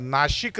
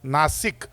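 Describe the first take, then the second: First: The middle consonant is a 'sh' sound. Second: The middle consonant is an 's' sound. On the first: This is the old pronunciation from British times. The speaker calls it wrong. "तो जुना उच्चार चुकीचा आहे ब्रिटिशांमुळे आलेला. नाशिक नाही बरं का" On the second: The name comes from the word for nose. The speaker calls it right. "नासिका कापली म्हणून त्याचं नाव नाशिक झालंय"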